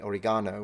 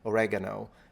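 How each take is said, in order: First: It is said with a British pronunciation. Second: It is said with an American pronunciation. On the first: "In England, you say oregano" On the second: "Americans say oregano"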